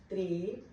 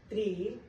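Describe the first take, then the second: The two takes are said the same way.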